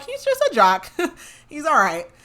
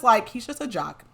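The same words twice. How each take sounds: First: Giggling, much higher, quoting the dads; laughing high quote. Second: Said in the usual way. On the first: Retold or imitated. Dads laughing about their jock son, voice jumping high. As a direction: laugh through it, pitch way up.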